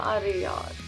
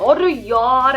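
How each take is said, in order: First: It is said with low, deflated energy. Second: It is said with high, happy energy. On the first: The speaker is disappointed. "तो ये एक बहुत ही लो energy." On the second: The speaker is very happy. "अगर कोई बहुत ज़्यादा खुश है, तो कितनी एनर्जी से बात करेगा"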